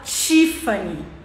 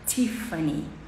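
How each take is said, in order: First: The first sound is like 'ch'. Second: The first sound is a soft, breathy t. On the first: This is how Brazilians say it. The speaker calls it wrong. "a gente fala Tiffany" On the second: This is how Americans say it. The speaker calls it right. "mas o americano fala t, t, t, Tiffany, t, bem suave"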